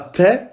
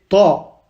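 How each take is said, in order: First: The sound is plain and light. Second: The sound is deeper and heavier. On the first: The speaker calls it wrong. "C'est pas te" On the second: The speaker calls it right. "on prononce avec un son plus grave"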